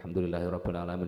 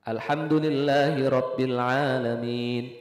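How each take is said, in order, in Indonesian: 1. Bacaannya terburu-buru, bunyinya saling menyambung dan kabur. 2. Bacaannya cepat dan sigap, setiap bunyi terucap dengan jelas. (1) "Jangan ya" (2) "bacanya pakai hadir. Hadirnya masih masih jelas"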